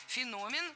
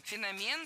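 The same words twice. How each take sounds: First: Феномен stressed on the middle syllable, фе-НО-мен; scientific-term stress. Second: Феномен stressed on the last syllable, фено-МЕН; everyday-word stress. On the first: Teacher shows the scientific term, middle-syllable stress. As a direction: hit НО in Феномен, pitched higher. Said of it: "научный термин". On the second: Teacher shows the everyday word, final-syllable stress. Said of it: "слово общеупотребительное". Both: Shown as a demonstration.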